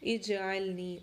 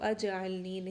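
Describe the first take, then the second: First: The word begins with an 'i' vowel. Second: The word begins with an 'a' vowel. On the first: The speaker calls it right. "ऐसे हमने पहले पढ़ा था" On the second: The speaker calls it wrong. "उसको अजअलनी नहीं पढ़ना"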